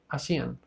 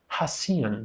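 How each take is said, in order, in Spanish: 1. El sonido inicial de la h es mudo. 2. El sonido inicial de la h se pronuncia. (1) "es simplemente hacían" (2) "no es hacían, no, no, no"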